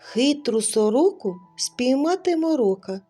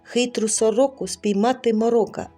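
First: It is said at a slower, normal pace. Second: It is said at a noticeably faster pace. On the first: "Ось послухайте" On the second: "А тепер трохи швидше"

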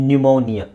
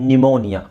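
No difference in how they are said.

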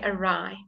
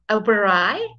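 First: The w before the r is silent. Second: The w before the r is sounded. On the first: The speaker calls it right. "We say awry" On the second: The speaker calls it wrong. "we don't say the awry? We don't say that"

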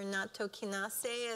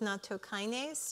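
First: It is pronounced the Japanese way. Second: It is pronounced the English way.

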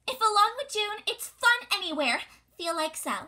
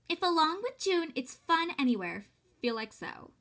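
First: It is said in a put-on high voice. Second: It is said in her normal voice.

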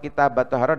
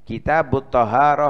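First: The vowel after kitab is 'a'. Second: The vowel after kitab is 'u'. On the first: The phrase is the object of an omitted verb. "dengan fathah" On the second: The phrase is the subject of the sentence. "Kalau di dhammah itu bisa menjadi mubtada"

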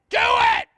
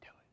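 First: It is yelled loudly and forcefully. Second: It is said calmly and quietly.

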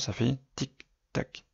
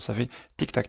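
First: The ticking is imitated at a steady, slower pace. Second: The ticking is imitated at a much faster pace. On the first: The indicator is working normally. "à une certaine vitesse" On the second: A bulb has burned out. "clignotent beaucoup plus rapidement"

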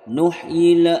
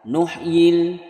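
First: The sound bounces off abruptly. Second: The sound is clear and held. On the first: The speaker calls it wrong. "dibaca memantul, juga tidak boleh" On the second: The speaker calls it right. "harus ditahan, jelas ya. Nuhyil betul"

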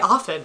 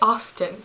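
First: The word is said with a silent T. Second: The word is said with an audible T. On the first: The speaker calls it right. "it will say often" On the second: The speaker calls it wrong. "It will not say often"

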